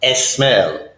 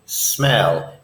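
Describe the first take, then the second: First: The word begins with a vowel before s. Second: The word begins directly with an s sound. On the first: The speaker calls it wrong. "It is not smell" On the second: The speaker calls it right. "Words that start with the letter S start with the letter S when you pronounce them"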